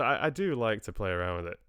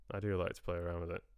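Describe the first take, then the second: First: Playfully put-on Scottish accent. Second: Said in the usual way. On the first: Shown as a demonstration. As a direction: play around in a Scottish accent. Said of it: "a wee Scottish accent".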